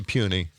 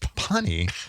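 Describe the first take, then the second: First: The first syllable sounds like 'pew'. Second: The first syllable sounds like 'pun'. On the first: The speaker calls it right. "it should be puny because it's spelled that way" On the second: The speaker calls it wrong. "I always said punny"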